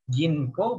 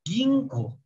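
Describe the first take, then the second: First: "Ginko" with a plain n before k; as written, with n. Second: "Ginko" slowly as "Gingko"; n read as ng. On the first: Teacher reads the written form, plain n in "Ginko". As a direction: keep the n in "Ginko". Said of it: "tulisannya Ginko". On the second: Teacher shows the reading, ng in "Ginko". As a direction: hum an ng before the k in "Ginko". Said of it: "dibaca jadi eng". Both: Shown as a demonstration.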